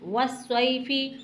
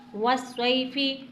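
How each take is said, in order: No difference in how they are said.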